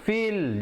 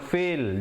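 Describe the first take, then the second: First: The vowel is a long ee sound. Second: The vowel sounds like the ai in fail. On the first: The speaker calls it right. "Dia kena feel, macam feeling good itu" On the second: The speaker calls it wrong. "jangan fil ... Fil macam gagal, itu tak betul"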